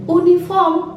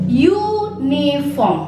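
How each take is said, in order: First: The word starts with a plain vowel sound. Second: The word starts with a y sound. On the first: The speaker calls it wrong. "bukan uniform" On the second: The speaker calls it right. "ada penekanan U. Jadi seolah-olah dia seperti huruf Y"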